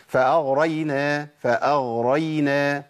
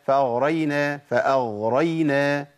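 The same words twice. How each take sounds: The two takes are said the same way.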